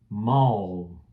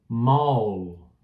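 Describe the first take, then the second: Both takes have the same delivery.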